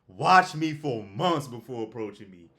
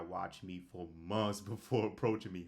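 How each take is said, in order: First: The phrase is said noticeably louder. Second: The phrase is said at normal volume.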